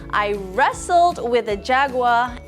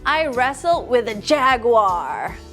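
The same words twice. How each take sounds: First: The word wrestled gets the strongest stress. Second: The word jaguar gets the strongest stress. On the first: The rough physical activity is highlighted. "So maybe we should emphasize the words wrestled and bored" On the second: The kind of animal is highlighted. "You can also emphasize the word jaguar and kangaroo"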